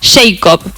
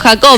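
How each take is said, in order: First: The name is said with English pronunciation. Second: The name is said with local Spanish pronunciation. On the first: "era el apellido de mi profesora de inglés y se pronunciaba de la siguiente manera" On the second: "lo hago más criollo"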